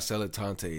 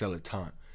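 First: The final E is pronounced as a syllable. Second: The final E is silent, not pronounced. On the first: The speaker calls it wrong. "not Celatante" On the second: The speaker calls it right. "it's Celatant... the silent E"

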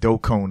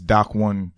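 First: It is said as one blended word. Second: It is said as two separate words. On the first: The speaker calls it wrong. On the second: The speaker calls it right.

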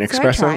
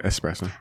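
First: The word starts with an ex sound. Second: The word starts with an es sound. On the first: The speaker calls it wrong. "No X" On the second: The speaker calls it right.

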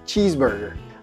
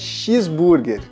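First: It is said with an English pronunciation. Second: It is said with a Brazilian Portuguese pronunciation. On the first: The speaker calls it right. "Em inglês você não vai falar assim, você fala cheeseburger" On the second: The speaker calls it wrong. "Em português, alguém pegou a palavra cheese... e colocou um X ali. E fala cheeseburger"

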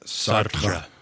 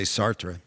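First: The R is rolled a little. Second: The R is said plainly, not rolled. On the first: "But I would roll your R a little bit" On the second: "I would say Sartre"

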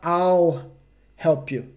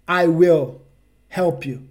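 First: I will is contracted into one syllable. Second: I will is said as two full words. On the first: The speaker calls it right. "Ele vai falar I'll help you" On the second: The speaker calls it wrong. "Ele não vai falar I will help you"

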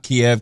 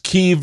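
First: The name uses the Russian pronunciation. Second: The name uses the Ukrainian pronunciation. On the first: This is the older form from another language. The speaker calls it wrong. "It's not Kiev. Kiev is the Russian version of it" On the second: This is the current, respectful form. The speaker calls it right. "because it's Kiev now, because that's how you pronounce it in Ukrainian"

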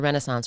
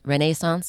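First: It is pronounced the American way. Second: It is pronounced the British way.

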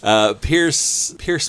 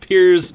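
First: The name ends with an s sound. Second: The name ends with a z sound. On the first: The speaker calls it wrong. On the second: The speaker calls it right.

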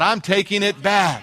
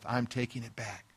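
First: It is said very loudly. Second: It is said softly, under the breath.

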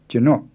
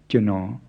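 First: The word is said with a creaky tone. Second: The word is said with a low tone. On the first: It means my, said by a man. "It's pronounced with a creaky tone instead of a low tone" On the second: It means I, said by a man. "Not jino"

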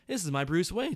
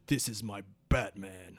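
First: It is said in a normal voice. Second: It is said in a deeper voice.

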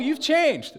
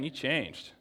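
First: The tone sounds pleased and impressed. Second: The tone sounds disapproving and let down. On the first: The change was for the better. "That's good" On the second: The change was for the worse. "That's bad"

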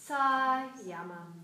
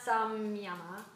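First: No m sound is heard before the y. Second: An m sound is heard before the y. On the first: The speaker calls it right. "That's how you say Sayama" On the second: The speaker calls it wrong. "it's not Samyama"

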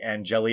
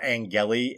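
First: The name begins like the word 'angel'. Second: The name does not begin like 'angel'. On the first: The speaker calls it right. "Angeli as an angel" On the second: The speaker calls it wrong. "not Angeli"

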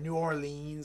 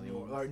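First: The name is said in an exaggerated, overdone way. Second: The name is said in a plain, ordinary way. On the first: The speaker calls it wrong. "that's overdoing it" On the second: The speaker calls it right. "just New Orleans"

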